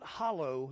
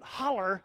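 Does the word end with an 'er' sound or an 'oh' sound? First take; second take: oh; er. First: The word ends with an 'oh' sound. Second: The word ends with an 'er' sound. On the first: The speaker is from Ohio. The speaker calls it wrong. "Not hollow, that means you're from Ohio" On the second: The speaker is from West Virginia. The speaker calls it right. "that means you're from my neck of the woods"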